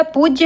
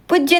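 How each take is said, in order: First: पूज्य with a long oo; correct पूज्य. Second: पूज्य with a short u; wrong पूज्य. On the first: Teacher gives the correct word, पूज्य with long oo. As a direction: lengthen the first vowel of पूज्य. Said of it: "होता है". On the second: Teacher shows the misspelling, पूज्य with short u. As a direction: clip the first vowel of पूज्य to "pujya". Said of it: "नहीं होता". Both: Shown as a demonstration.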